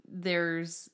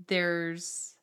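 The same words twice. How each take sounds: The two takes are said the same way.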